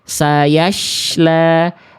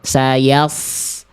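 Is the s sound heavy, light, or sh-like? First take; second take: sh-like; heavy. First: The s sound becomes an sh sound. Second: The s sound is thick with raised tongue root. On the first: The speaker calls it wrong. "yang dibaca adalah huruf shin" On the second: The speaker calls it right. "Angkat pangkal lidahnya"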